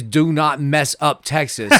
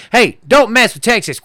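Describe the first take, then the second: First: Deliberate, slower "Do not mess up Texas"; literal slogan reading. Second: Higher, punchy mock-Texan warning; hammed-up "don't mess with me" bravado; tough-guy slogan. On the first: Shown as a demonstration. Explaining the litter slogan to co-hosts, slow and literal. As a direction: spell out "Do not mess up Texas" slowly, evenly. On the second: Mocking what the litter slogan became, tough-guy bravado. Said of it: "but it became a".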